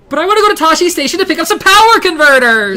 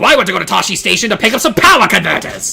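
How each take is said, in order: First: It is said in a put-on character voice. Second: It is said in the character's father's voice.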